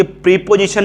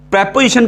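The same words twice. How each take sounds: First: प्रीपोजिशन with a long "pree" at the start; wrong pronunciation. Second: प्रीपोजिशन with a short "prep" at the start; correct pronunciation. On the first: Teacher showing pupils the mistake, प्रीपोजिशन with long "pree". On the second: Teacher modelling the right way for pupils, प्रीपोजिशन with short "prep". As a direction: say प्रीपोजिशन as "PREP-o-zi-shun", short first vowel. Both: Shown as a demonstration. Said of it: "प्रीपोजिशन नहीं बोलते हैं".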